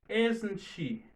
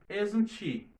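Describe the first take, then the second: No difference in how they are said.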